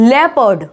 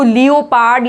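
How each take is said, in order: First: The first part is said as 'le'. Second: The first part is said as 'leo'. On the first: The speaker calls it right. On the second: The speaker calls it wrong. "लियोपार्ड या लियोपर्ड नहीं"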